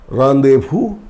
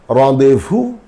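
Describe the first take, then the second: No difference in how they are said.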